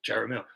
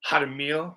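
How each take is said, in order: First: The name is said with English sounds. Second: The name is said with Spanish sounds. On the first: "like car caramello" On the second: "Spanish pronunciation is Hadamil"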